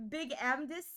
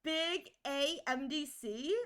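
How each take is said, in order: First: "Big Amdis" with the letters run together as one word; name as word. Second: "Big A M D C" said slowly, letter by letter; spelled-out name. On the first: Streamer offers viewer another reading, "Amdis" as one word. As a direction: say "Amdis" as a word, not spelled. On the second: Streamer asks viewer about the name, "A M D C" as separate letters. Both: Shown as a demonstration. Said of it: "What would you like me to call you?".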